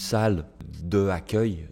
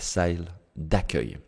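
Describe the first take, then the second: First: The vowel of de is kept before accueil. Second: The vowel of de is dropped and joined on. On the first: The speaker calls it wrong. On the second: The speaker calls it right.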